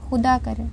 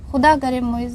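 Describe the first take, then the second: First: Said in the usual way. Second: Mild sob-choked curse, louder on खुदा; a hint of crying as she curses; tearful curse. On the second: A narrator's reading. Heartbroken girl cursing Moiz through tears. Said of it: "रोते हुए उसने बहुत दुखी दिल से बद्दुआ दी थी".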